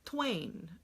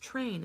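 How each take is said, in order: First: The word starts with a W sound after T. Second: The word starts with an R sound after T. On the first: The speaker calls it wrong. "they'll use the w or something like that" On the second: The speaker calls it right. "no, it's train"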